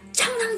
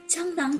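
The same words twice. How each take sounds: First: It is said very loudly. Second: It is said softly and gently. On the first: A desperate shout to leave. "很大声的讲" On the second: A kind request to leave. "用一些很温柔的声音对他讲"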